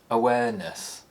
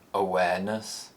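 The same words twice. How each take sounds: First: The pitch falls from a high starting point. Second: The pitch rises from a low starting point. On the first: "high falls" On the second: "The low rise"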